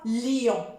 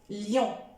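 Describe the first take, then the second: First: The i sound is pressed hard and drawn out. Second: The i sound is pressed only lightly and briefly. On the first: The speaker calls it wrong. "n'appuyez pas trop sur le i. Ne dites pas lion. Non, c'est faux" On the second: The speaker calls it right. "j'essaie d'appuyer un petit peu légèrement sur le i"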